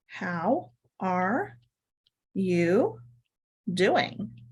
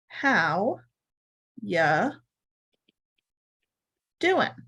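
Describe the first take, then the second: First: It is said in full, with 'are' pronounced. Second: It is quick, with 'are' dropped and 'you' reduced. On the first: "really what we're saying here is" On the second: "it's really quick. There's not a lot of intonation"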